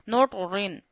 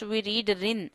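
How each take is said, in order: First: The r sound is heavy and thick. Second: The r sound is light and thin. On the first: The speaker calls it wrong. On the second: The speaker calls it right. "when two zer comes, we read rin"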